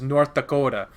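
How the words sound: It is said with a Northern accent. "the state my mom is from is North Dakota"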